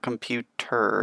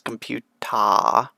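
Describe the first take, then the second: First: The word ends with an 'er' sound. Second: The word ends with an 'ah' sound. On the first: This is the original English pronunciation. "it's not computer" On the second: This is the pronunciation borrowed into Japanese. "it's computa"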